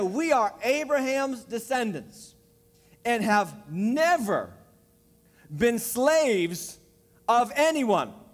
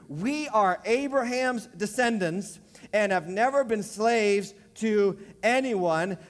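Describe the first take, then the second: First: It is read slowly. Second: It is read at a normal pace.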